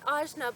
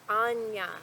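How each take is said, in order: First: The middle consonant is a hard 'j' sound. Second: The middle consonant is a soft 'ny' sound. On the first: The speaker calls it wrong. "I called it ajna, but I, I must ask for your forgiveness" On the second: The speaker calls it right. "the proper way to pronounce ... is actually more like Anya"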